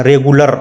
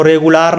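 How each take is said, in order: First: "रेगुलर" ending in a short -lər; correct pronunciation. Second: "रेगुलर" ending in a long -laar; wrong pronunciation. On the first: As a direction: keep the last vowel of "रेगुलर" a short अ. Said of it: "अ निकलता है". ("रेगुलर" के अंत में छोटा अ) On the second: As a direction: stretch the last vowel of "रेगुलर" to आ. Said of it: "इसको रेगुलर नहीं पढ़ेंगे". ("रेगुलर" को गलत ढंग से रेगुलार बोलना) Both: Shown as a demonstration.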